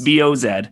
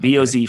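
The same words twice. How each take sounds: First: The final letter is pronounced zed. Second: The final letter is pronounced zee.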